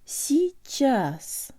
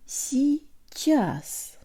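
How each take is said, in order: First: The word is said in full, two syllables. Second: The same.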